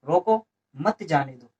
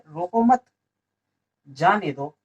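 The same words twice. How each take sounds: First: There is a pause right after 'roko'. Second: There is a pause right after 'mat'. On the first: "तो रोको, थोड़ा रुक, इसमें यहाँ विराम लेंगे" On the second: "आगे बढ़ेंगे"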